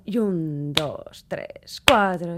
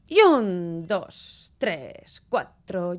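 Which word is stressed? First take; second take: cuatro; un. First: The stress falls on the count four. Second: The stress falls on the count one. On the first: "el acento cuando está en el cuatro" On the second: "el acento está en el uno"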